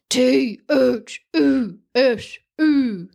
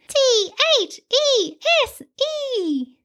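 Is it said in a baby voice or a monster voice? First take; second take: monster voice; baby voice. First: It is said in a loud monster voice. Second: It is said in a baby voice.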